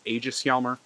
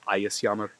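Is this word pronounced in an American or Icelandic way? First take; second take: American; Icelandic. First: It is pronounced with an American English accent. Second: It is pronounced with a modern Icelandic accent. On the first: "sometimes the Americans pronounce this as" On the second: "modern Icelandic pronunciation is"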